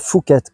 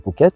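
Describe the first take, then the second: First: The name begins with an f sound. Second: The name begins with a p sound. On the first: The speaker calls it wrong. "on ne dit pas Phuket" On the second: The speaker calls it right. "quand on parle de Phuket"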